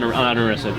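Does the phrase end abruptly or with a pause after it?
abrupt. The phrase ends abruptly with no pause after. There is nothing left to respond to. "It's not this"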